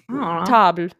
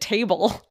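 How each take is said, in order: First: The word is pronounced with French sounds. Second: The word is pronounced like the English word. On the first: The speaker calls it right. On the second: The speaker calls it wrong.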